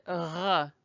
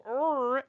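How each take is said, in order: First: "R" as a throaty French ruh. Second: "R" as English er at the front of the mouth. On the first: Teacher shows the target French sound, throaty "R". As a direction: roll "R" from the back of the throat. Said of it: "you will never get to R". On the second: Teacher warns learners off our sound, front-of-mouth English "R". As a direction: hold "R" as an English rrr. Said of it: "if you go R". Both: Shown as a demonstration.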